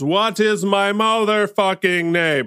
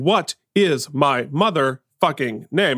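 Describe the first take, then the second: First: The words run together into one blended stream. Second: Each word is said clearly and separately. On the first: The speaker calls it right. "your objective is to sort of blend all of the words together" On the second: The speaker calls it wrong. "So you're not saying"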